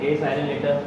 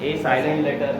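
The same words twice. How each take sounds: No difference in how they are said.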